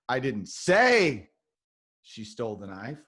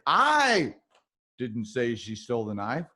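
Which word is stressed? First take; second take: say; I. First: The stress is on the word say. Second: The stress is on the word I.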